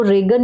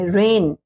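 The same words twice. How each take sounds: First: रेगन with a hard g syllable; mispronunciation. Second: रेन as one syllable, g silent; correct pronunciation. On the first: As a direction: sound the g in रेगन. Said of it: "इसको रेगन नहीं बोलेंगे". (ग बोलकर रेगन) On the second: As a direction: go straight to n in रेन. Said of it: "इसका sound नहीं देना है". (ग चुप रखकर रेन) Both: Shown as a demonstration.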